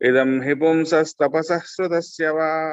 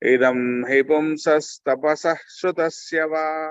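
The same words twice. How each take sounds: First: The phrase is recited at a normal pace. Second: The phrase is recited slowly.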